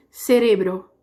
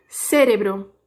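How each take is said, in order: First: "Cerebro" stressed on RE; Spanish stress. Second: "Cérebro" stressed on CÉ; Portuguese stress. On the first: Teacher contrasting it with Portuguese, "Cerebro" stressed on RE. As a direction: shift the weight to RE in "Cerebro". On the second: Teacher asking students to notice the difference, "Cérebro" stressed on CÉ. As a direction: put the weight on the first syllable of "Cérebro". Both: Shown as a demonstration. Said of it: "Percebe a diferença".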